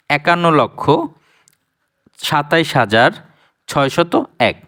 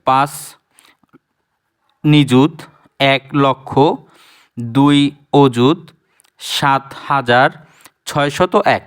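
First: Said in the usual way. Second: Slow, each place name spelled out; place-by-place reading. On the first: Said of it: "সচরাচর যেটা বাংলায় উচ্চারণ করি". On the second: Shown as a demonstration. Teacher reads the number by each place, slowly. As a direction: read it unit by unit, slowly. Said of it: "কথাটা একটু মানানসই হয় না".

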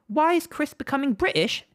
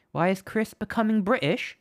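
First: The line again in a higher, hammed British accent; mock British accent. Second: Said in the usual way. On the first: Streamer answers chat's joke in a mock British accent. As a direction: put on a playful British accent. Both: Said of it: "why I'm becoming British".

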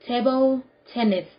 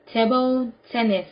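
No difference in how they are said.

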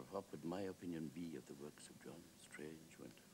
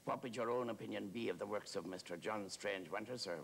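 First: Hushed, pondering Wilde; musing echo. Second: Even, full-voiced deferential query; keen, respectful questioning; earnest admirer's question. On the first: Acted. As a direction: hand the question back quietly, trailing away. Wilde echoes the question back. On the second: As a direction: ask it eagerly, at full conversational volume. Admirer's earnest question, later echoed.

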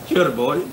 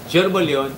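First: Sure ball? with a rising, doubting tune; questioning echo. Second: Sure ball yun with a falling, settled tune; flat confirmation. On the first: Echoing a viewer's comment. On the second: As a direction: state Sure ball yun as a done deal. Confirming the viewer's comment. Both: Retold or imitated.

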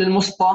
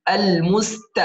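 First: المسط with a heavy emphatic ط; mispronunciation demo. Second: المست with a light, thin ت; correct light T. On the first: Teacher shows the mistake, المسط with heavy ط. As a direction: thicken the ت of المست into ط. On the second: Teacher models it, المست with light ت. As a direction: keep the ت in المست fronted and light. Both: Shown as a demonstration. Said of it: "لا نقول المسط".

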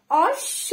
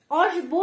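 First: অশ্ব as osh-sho, no b sound; doubled consonant. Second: অশ্ব as osh-bo, with the b sounded; wrong pronunciation. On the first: Teacher corrects the word for pupils, doubled consonant. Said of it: "double উচ্চারণ হচ্ছে". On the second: Teacher warns pupils off this reading, mispronounced. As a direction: voice the ব in অশ্ব after sh. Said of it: "অশ্ব না কিন্তু". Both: Shown as a demonstration.

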